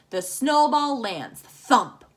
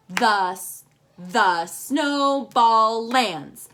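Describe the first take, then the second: First: Said in the usual way. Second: Very slow, each syllable counted apart. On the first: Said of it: "Our first line should have five syllables". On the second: Shown as a demonstration. Teacher counting syllables for the class, very slow and separated. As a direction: tap out every syllable slowly. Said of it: "We'll do this one like this".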